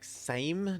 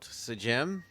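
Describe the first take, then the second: First: It is said as one syllable, rhyming with 'same'. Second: It is said as two syllables, 'sa-jem'. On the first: The speaker calls it right. "It's pronounced like same" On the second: The speaker calls it wrong. "not Sajem"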